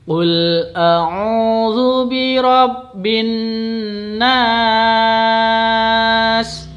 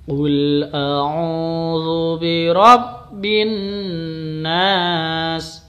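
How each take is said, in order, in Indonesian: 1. Huruf vokal terakhir dibaca panjang lima ketukan. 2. Huruf vokal terakhir dibaca panjang dua ketukan.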